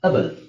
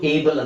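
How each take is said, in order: First: The suffix begins with a weak 'uh' vowel. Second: The suffix begins with a full 'ay' vowel. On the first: The speaker calls it right. "ದೊಡ್ಡ ಪದದಲ್ಲಿ ಅಬಲ್" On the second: The speaker calls it wrong. "ಇದು ಏಬಲ್ ಅಂತ ಬರಲ್ಲ"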